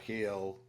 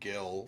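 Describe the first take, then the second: First: The name starts with a breathy H sound. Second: The name starts with a hard G sound. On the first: The speaker calls it right. "G in Spanish is an H" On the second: The speaker calls it wrong. "I would have called him Gil"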